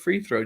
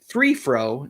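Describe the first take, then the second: First: The f and th sounds are in place. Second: The f and th sounds are swapped. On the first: This is the usual way to say it. "instead of free throw" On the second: This is how the speaker's father said it. "he'd say fr- three fro"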